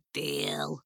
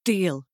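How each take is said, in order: First: Low, soft, drawn-out imp voice; sly imp sealing it softly; little imp. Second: Firm, simple agreement; crisp yes to a bargain; agreeing girl. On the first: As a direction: relish the bargain, low and quiet. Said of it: "said the little imp". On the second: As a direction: accept decisively as the girl. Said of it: "she said". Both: Acted.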